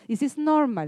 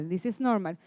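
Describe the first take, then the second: First: Said in the usual way. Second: Repeated softly and lower, to calm them; softer reassurance. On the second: Shown as a demonstration. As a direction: say it again gently, as reassurance.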